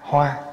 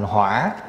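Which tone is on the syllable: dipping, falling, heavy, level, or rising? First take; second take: level; dipping. First: The syllable has a level tone. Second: The syllable has a dipping tone. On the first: It means a flower. "chữ hoa, H O A" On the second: It means fire. "lại đi để dấu hỏi vô, thành hỏa là lửa"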